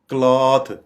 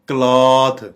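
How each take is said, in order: The two takes are said the same way.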